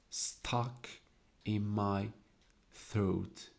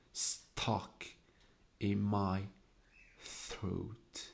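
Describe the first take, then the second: First: Said in the usual way. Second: Half-whispered, drawn-out reading of the line; breathy hushed reading. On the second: Shown as a demonstration. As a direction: hush it, let each word catch in the throat. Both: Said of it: "make the sound harsher".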